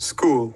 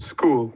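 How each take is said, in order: No difference in how they are said.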